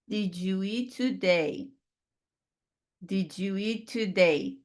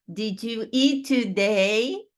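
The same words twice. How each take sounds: First: Slow, today falls; falling statement tune. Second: Slow, eat stressed, today rises; rising question tune. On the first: Teacher showing a question wrongly falling like a statement. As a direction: let the sentence die at the end. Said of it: "Isso não é uma pergunta". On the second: Teacher contrasting the right rising tune with the falling one. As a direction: lift it up at the end. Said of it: "Com sotaque, mais uma pergunta". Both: Shown as a demonstration.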